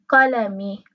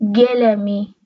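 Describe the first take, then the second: First: The word begins with a deep q sound. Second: The word begins with a hard g sound. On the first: "در زبان عربی میگیم قلمی" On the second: "تو لهجه خلیجی میگن گلمی"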